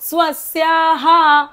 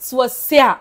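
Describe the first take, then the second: First: The word ends with a full echoed 'ha' sound. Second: The word ends with only a brief breath out. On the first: No p sound follows the word. "जर पुढे प नसता ठीक आहे तर आपण काय बोललो असतो" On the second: A p sound follows the word. "विसर्ग अर्धाच बोलायचंय ... श्वास बाहेर सोडायचा"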